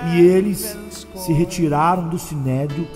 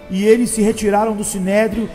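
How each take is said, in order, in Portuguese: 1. Ela é dita devagar e deliberadamente. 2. Ela é dita em ritmo normal.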